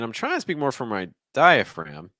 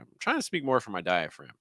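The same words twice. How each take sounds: First: The pitch wavers on the final word. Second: The pitch falls on the final word. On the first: "notice the way I said diaphragm there is again a little bit more of that waver instead of just a straight rise" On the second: "another option would be just maybe just a falling intonation"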